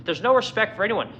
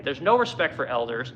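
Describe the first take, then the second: First: Indignant emphasis on no; stress on no. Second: Said in the usual way. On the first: Shown as a demonstration. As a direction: hit the word no hard. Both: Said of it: "There's no respect for old people today".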